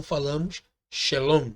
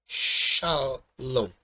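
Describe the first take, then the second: First: "shalom" with the first syllable reduced to "she"; Aramaic shalom. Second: "shalom" slowly, weight on the first syllable "sha"; stress on shalom. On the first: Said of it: "Não falamos chá, falamos she". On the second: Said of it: "O chá aqui, ele é mais tônico". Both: Shown as a demonstration.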